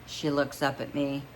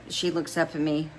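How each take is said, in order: Both takes have the same delivery.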